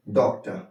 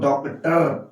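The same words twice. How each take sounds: First: डॉक्टर ending in a light schwa, "dokta"; weak A ending. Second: डॉक्टर with the last syllable pronounced fully as "tar"; डॉक्टर with a heavy, fully sounded "-tar" ending; full final R. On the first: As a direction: drop the R at the end of डॉक्टर. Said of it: "sound में ये वीक ए मौजूद रहता है". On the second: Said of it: "तो हम लोग डॉक्टर नहीं पढ़ते हैं". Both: Shown as a demonstration.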